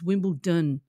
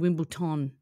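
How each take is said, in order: First: The last syllable is said with a d sound. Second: The last syllable is said with a t sound. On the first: The speaker calls it right. "it's Wimbledon ... D O N" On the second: The speaker calls it wrong. "You don't say Wimbledon ... not T O N"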